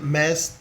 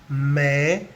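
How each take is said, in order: First: The word ends with an audible S sound. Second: The word ends on the vowel, S silent. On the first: The speaker calls it wrong. "no podemos decir mes" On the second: The speaker calls it right. "En francés se pronuncia me"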